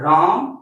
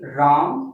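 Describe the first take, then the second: First: The word is said loudest of all. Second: The word is said somewhat louder. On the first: The sound is at its strongest. "और ज्यादा तेज से बोलेंगे" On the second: The sound travels a bit farther. "मेरा vibration थोड़ा इतना दूर तक गया।"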